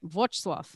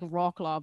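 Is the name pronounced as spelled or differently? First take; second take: differently; as spelled. First: The name is said unlike its spelling. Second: The name is read out as it is spelled. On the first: The speaker calls it right. "but it isn't" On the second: The speaker calls it wrong. "It's the one that looks like Wrocław"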